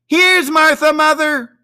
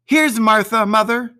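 First: Put-on much higher, loud children's shout; two excited kids yelling the news; high loud cheering children's cry. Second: Put-on higher girl's voice, bright and proud; a daughter stepping in to surprise her mother; plain, a little higher girl's call; girl announcing herself. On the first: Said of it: "cried the two young Cratchits". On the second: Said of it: "said a girl". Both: A narrator's reading.

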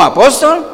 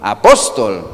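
First: High, loud, incredulous question on "Apóstol"; shocked. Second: Said in the usual way. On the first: Acted. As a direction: balk at "Apóstol" in disbelief, voice shooting up. Oyente escandalizado por el título. ("Apóstol" con incredulidad escandalizada)

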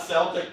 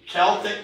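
First: "Celtic" starting on an S sound like the basketball team; Sel-tic pronunciation. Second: "Celtic" starting on a K sound like kettle; "Celtic" pronounced KEL-tik, hard C; Kel-tic pronunciation. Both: Shown as a demonstration. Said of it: "it's actually Celtic, not Celtic".

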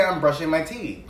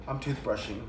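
First: Brushing my teeth said as separate words. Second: Toothbrushing said as one word. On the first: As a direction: say brushing my teeth, not toothbrushing. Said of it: "I would say". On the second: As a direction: say toothbrushing as a single compound word. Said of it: "I wouldn't say". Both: Shown as a demonstration.

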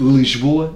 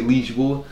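First: "Lisboa" with the first vowel eaten, "L'jboa"; swallowed syllable. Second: "Lisboa" slowly with a clear i; careful "Lij-bo-a", first vowel kept in "Lisboa"; full pronunciation. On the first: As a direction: squash "Lisboa" into two syllables. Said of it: "em vez de ser Lisboa". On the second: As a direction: sound every syllable of "Lisboa". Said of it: "em vez de ser". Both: Shown as a demonstration.

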